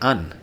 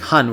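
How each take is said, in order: First: The word begins without an h sound. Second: The word begins with an h sound. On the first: "the H, if it's not stressed, is going to drop out" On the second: "instead of saying han"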